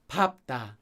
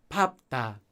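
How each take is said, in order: No difference in how they are said.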